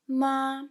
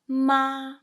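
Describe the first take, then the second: First: The syllable is held long on a level pitch. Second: The same.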